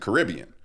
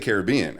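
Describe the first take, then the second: First: Caribbean is said with the Canadian pronunciation. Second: Caribbean is said with a non-Canadian pronunciation. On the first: "in Canada they call it Pirates of the Caribbean" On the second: "they don't say Caribbean"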